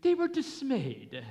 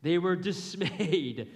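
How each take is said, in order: First: Higher, louder mock British reading; mock British accent. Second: Laughing read. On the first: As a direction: say it like a prim British narrator. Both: Shown as a demonstration. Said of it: "It sounds quite British".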